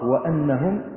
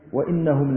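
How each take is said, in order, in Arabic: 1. الهمزة تُنطق بالحركة a. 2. الهمزة تُنطق بالحركة i.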